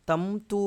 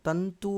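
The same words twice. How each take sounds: First: "tam-tu", lips closing on the nasal in తంతు; wrong "m" sound. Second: "tan-tu", tongue at the teeth for the nasal in తంతు; correct dental nasal. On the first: Teacher showing students how not to say it, తంతు as "tam-tu". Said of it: "అనము". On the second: Teacher showing students the proper way, తంతు as "tan-tu". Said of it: "అంటాము". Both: Shown as a demonstration.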